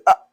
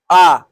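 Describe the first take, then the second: First: "ah" cut short; the wrong, shortened "ah". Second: "ah" held long and louder; a full-length "ah", not shortened. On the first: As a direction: say a brief "ah" with the vowel not held. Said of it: "Don't short it. Don't say ah". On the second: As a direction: draw out the vowel in "ah", full and firm. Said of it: "Don't short it". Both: Shown as a demonstration.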